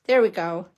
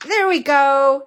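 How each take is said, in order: First: Said in the usual way. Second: Louder, drawn-out victory cry; triumphant. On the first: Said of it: "maybe it's like this". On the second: Real, not acted. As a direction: celebrate finally getting it.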